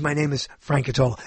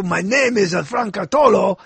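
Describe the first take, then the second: First: Said in the usual way. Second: English in a put-on French accent; French-accented self-introduction. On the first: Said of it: "That means". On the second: Shown as a demonstration. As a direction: demonstrate a French accent on the name. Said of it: "then I say it with the accent".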